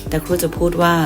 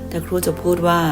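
No difference in how they are said.

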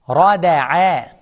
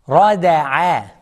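No difference in how they are said.

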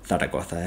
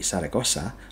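First: The name is said in a Madrid Spanish accent. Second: The name is said without a Madrid Spanish accent.

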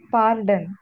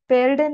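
First: The first syllable sounds like 'par'. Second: The first syllable sounds like 'per'. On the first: The speaker calls it right. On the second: The speaker calls it wrong. "पेर्डन नहीं"

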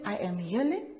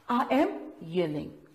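First: The voice is flat and quiet. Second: The voice is loud and forceful. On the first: The speaker calls it wrong. "Do we just say I am yelling?" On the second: The speaker calls it right. "We read that with an exclamation mark"

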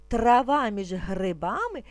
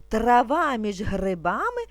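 No difference in how they are said.

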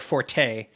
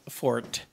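First: The word is said as two syllables. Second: The word is said as one syllable. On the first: The speaker calls it wrong. "everybody uses it as forte" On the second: The speaker calls it right. "You're supposed to say fort"

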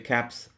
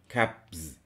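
First: The word ends with a voiceless s sound. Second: The word ends with a voiced z sound. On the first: The speaker calls it right. "we use the voiceless s, caps. It's easier to say caps" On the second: The speaker calls it wrong. "than saying caps"

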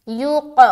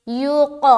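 Both takes have the same delivery.

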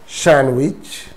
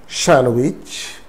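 Both takes have the same delivery.

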